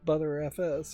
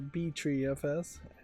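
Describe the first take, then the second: First: The name begins with the word 'butter'. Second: The name begins with the letters 'B-tree'. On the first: "I'm going to stick with ButterFS" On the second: "I've never heard anybody pronounce it BTreeFS"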